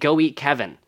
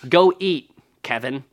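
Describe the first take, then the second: First: There is no pause before Kevin. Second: There is a pause before Kevin.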